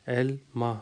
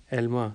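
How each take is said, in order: First: ایلما split as El... ma, with a pause; broken into syllables. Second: Said in the usual way. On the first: Shown as a demonstration. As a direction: break ایلما into two pieces, El and ma. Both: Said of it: "جس طرح سے آپ توڑ کے".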